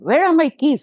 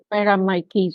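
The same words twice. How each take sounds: First: The question sounds sudden and accusing. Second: The question sounds calm and searching. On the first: The listener feels blamed. "if I suddenly say, oh" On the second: The speaker is simply looking for something. "I'm just searching there"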